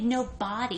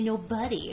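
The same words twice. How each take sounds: First: The middle syllable sounds like 'bod'. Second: The middle syllable sounds like 'bud'. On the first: "You don't say nobody" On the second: "you say nobody"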